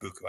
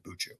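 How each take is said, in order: First: The middle consonant is a hard k sound. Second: The middle consonant is a ch sound. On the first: This is the speaker's own pronunciation. "I pronounce it Buku" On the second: This is how some other people say it. "I think some people say Buchu"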